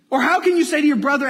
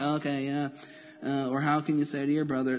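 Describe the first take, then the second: First: Louder and fast, bursting with energy; quick, loud, animated delivery; lively vivid reading. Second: Softer, dull mock Bible reading with no life in it; mock-bored, quieter reading; bored flat reading. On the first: Shown as a demonstration. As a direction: make the question leap off the page. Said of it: "Put it in your head". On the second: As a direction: skim the verse as if it's nothing. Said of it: "sometimes we read the Bible and like".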